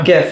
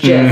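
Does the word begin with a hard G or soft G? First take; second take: hard G; soft G. First: The word begins with a hard G sound. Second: The word begins with a soft J sound. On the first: The speaker calls it right. "It's a hard G" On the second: The speaker calls it wrong. "it's a soft G pronounced Jiff"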